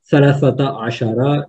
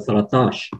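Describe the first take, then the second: First: Thirteen is said as two full separate words. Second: Thirteen is said as one short contracted word. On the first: This is the literary Arabic form. "ils ne vont pas dire" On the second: This is the dialect form heard in the street. "ils vont dire"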